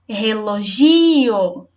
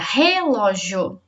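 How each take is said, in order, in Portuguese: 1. A tônica está na terceira sílaba. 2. A tônica está na primeira sílaba. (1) "Se for o gi" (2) "Se for o re, a sílaba mais forte fica"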